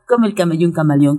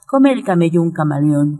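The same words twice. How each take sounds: First: The phrase is said very quickly. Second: The phrase is said at a moderate pace.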